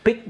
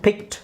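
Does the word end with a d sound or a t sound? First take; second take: d sound; t sound. First: The word ends with a d sound. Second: The word ends with a t sound. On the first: The speaker calls it wrong. "ಡಿ ಅಂತ pronounce ಮಾಡಬಾರ್ದು" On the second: The speaker calls it right. "ಡಿನ ನೀವು ಟಿ ಮಾಡಬೇಕು"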